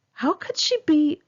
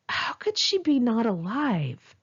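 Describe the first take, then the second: First: High, pained cry of disbelief; anguished disbelief. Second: Slow, drawn-out stunned question; slow disbelief. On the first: Grieving writer asking herself about her friend, anguished and high. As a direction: voice lifts as if breaking. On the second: Grieving writer asking herself again, slow and stunned. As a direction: let each word hang in shock. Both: Acted.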